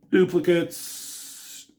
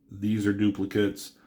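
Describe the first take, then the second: First: Duplicates drawn out slow and high; drawn-out scoff. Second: Said in the usual way. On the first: Shown as a demonstration. Pointing out repeated comic panels, slow high drawn-out Duplicates. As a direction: stretch Duplicates with mock disdain.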